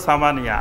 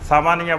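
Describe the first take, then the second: Both takes have the same delivery.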